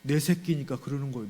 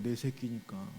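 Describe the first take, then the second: First: 내 leaned on with a falling tune; 내 given the weight, fond and firm; stress on 내. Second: 내 새끼니까 repeated much softer; a tender, hushed afterthought; soft echo. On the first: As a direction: hit 내 hard, then let the line fall. Repeats phrase, first take stressed. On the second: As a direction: let 내 새끼니까 fall away tenderly, almost to yourself. Soft echo of previous line. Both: Real, not acted.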